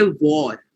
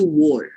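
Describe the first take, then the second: First: "war" with a v-like w and open aw; Indian pronunciation. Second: "war" with a shorter, less stressed, rounded vowel; shortened pronunciation. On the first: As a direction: demonstrate Indian English "war", close to "vawr". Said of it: "We say war". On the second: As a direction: shorten "war", as their accent does. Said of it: "it shortens to war". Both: Shown as a demonstration.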